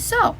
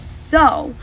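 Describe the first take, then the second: First: The vowel sounds like the word so. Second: The vowel rhymes with the word cow. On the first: To plant seeds. "One sounds like the word sow, and it and it means to plant" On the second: A female pig. "which is a female pig, and it rhymes with cow"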